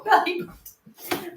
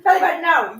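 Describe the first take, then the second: First: Slow, high, drawn-out belly button; scolding the cat. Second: Louder, higher Belly button with a firm falling no; firm no to the cat. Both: Real, not acted.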